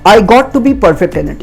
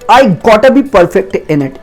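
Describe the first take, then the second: First: 'Got to' is said as two full words. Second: 'Got to' is run together as 'gotta'. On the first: "आप गॉट टू भी बोल सकते हैं" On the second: "गॉट टू को short में गोटा बोला जाता है"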